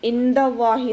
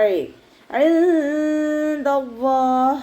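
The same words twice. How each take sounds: First: ഇൻദല്ലാഹി with a clear nun, no nasal hum; wrong reading. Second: Slow, higher chanted ഇൻദല്ലാഹ് with the nun hidden and nasal; correct recitation. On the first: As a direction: say ഇൻ plainly as the mistake. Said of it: "എന്ന് ഓതരുത്". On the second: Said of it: "നൂനിൻ്റെ സൗണ്ടിനെ hide ചെയ്യുകയും". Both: Shown as a demonstration.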